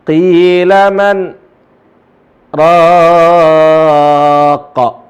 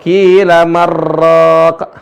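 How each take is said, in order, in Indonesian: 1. Jeda singkat memisahkan man dari raq. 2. Man menyambung langsung ke raq tanpa jeda. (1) "Berhenti sejenak, kemudian raqa" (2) "Kalau dia bilang marraq"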